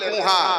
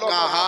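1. প্রথম স্বরধ্বনিটি 'u' ধ্বনি। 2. প্রথম স্বরধ্বনিটি 'a' ধ্বনি। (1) "কেবল আপনি বলেছিলেন কুহা, কিন্তু আসলে কুহা নয়" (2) "এর আসল উচ্চারণ হলো কাহা"

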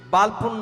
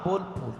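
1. প্রথম স্বরধ্বনিটি একটি খোলা 'a' ধ্বনি। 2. প্রথম স্বরধ্বনিটি একটি গোলাকার 'o' ধ্বনি। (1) "বালপুর না"

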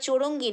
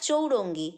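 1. শব্দটি হালকা, রোজকার কথার মতো করে উচ্চারণ করা হয়েছে। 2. শব্দটি সাবধানে, প্রমিত নিয়মে উচ্চারণ করা হয়েছে। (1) "বৌমা ঠিক করে দিচ্ছে ওটা চৌরঙ্গি না" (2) "অত শুদ্ধ ভাষা এনারা কেউই বলে না"

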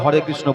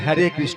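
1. প্রথম শব্দটি বাংলা 'o' স্বরধ্বনি দিয়ে উচ্চারিত হচ্ছে। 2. প্রথম শব্দটি ইংরেজি 'a' স্বরধ্বনি দিয়ে উচ্চারিত হচ্ছে। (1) "তারা ভালো করে হরে কৃষ্ণ বলতে পারে না" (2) "হরেটাকে উল্টে দিচ্ছে হ্যারে কৃষ্ণ বলছে"

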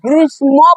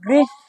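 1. এই শব্দে 'ম' ধ্বনিটি উচ্চারণ করা হয়। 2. এই শব্দে 'ম' ধ্বনিটি উচ্চারণ করা হয় না। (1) "এখানে লেখার অনুযায়ী আমাদের বলতে হইতো কি গ্রীষ্ম বলার কথা আছে, যেহেতু এখানে একটা ম আছে" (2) "কিন্তু উচ্চারণ করার সময় উচ্চারণ করব গ্রীষ্ম"

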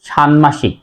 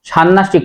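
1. n-এর পরে m ধ্বনিটি বজায় থাকে। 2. m লুপ্ত হয় এবং n দ্বিত্ব হয়। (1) "তাহলে উচ্চারণ হবে ষান্মাসিক" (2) "ষান্মাসিক নয়"

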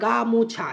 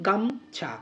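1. শব্দটি তিনটি আলাদা শব্দাংশে ভাগ হয়। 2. শব্দটি দুটি শব্দাংশের গুচ্ছ হিসেবে উচ্চারিত হয়। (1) "আমরা গা মো ছা এভাবে উচ্চারণ করি না" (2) "আমরা উচ্চারণ করি গাম ছা"

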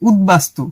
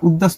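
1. d-এর পরে b ধ্বনিটি স্পষ্টভাবে উচ্চারিত হয়। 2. b ধ্বনিটি দ্বিত্ব ব্যঞ্জনের সঙ্গে মিশে যায়। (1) "এটা হবে উদ্বাস্তু। ওই যে বয়ের উচ্চারণটা বজায় থাকবে" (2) "এটা উদ্বাস্তু হবে না"

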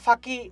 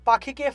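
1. শব্দটি aspirated ph ধ্বনি দিয়ে শুরু হয়। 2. শব্দটি সাধারণ p ধ্বনি দিয়ে শুরু হয়।

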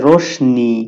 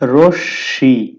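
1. শ-ধ্বনির পরে একটি ন-ধ্বনি আছে। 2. শ-ধ্বনিটি দ্বিত্ব করে ধরে উচ্চারিত হয়। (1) "এটাকে বলে রোশনি" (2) "তালব্যস্যটা দুইবার উচ্চারিত হবে"

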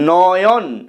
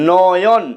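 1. প্রথম স্বরটি একটি খোলা aw ধ্বনি। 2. প্রথম স্বরটি একটি খোলা aw ধ্বনি।

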